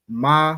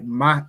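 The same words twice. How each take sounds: First: The vowel is held longer and softer. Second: The vowel is cut short and sharp. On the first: It is a word meaning how or what. "Ma would be the word for how or what" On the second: It names the letter. "Ma is the letter"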